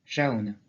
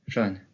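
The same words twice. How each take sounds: First: Jaune as Gascon "ja-oun"; "jaune" with both vowels heard, falling; Gascon pronunciation. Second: Jaune as one open O, "jonn"; "jaune" with a short open vowel; southern French open O. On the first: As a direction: say "jaune" with an a-ou glide. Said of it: "Et en gascon, de la même façon". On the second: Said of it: "Même dans le français parlé dans le Sud". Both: Shown as a demonstration.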